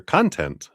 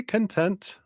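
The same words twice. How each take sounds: First: "content" said KON-tent, like media material; stress on first syllable. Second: "content" said kun-TENT, like satisfied; stress on second syllable. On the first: Streamer offering the other reading of a screen name, "content" as KON-tent. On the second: Streamer greeting a viewer by screen name, "content" as kun-TENT. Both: Shown as a demonstration. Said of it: "content, not content".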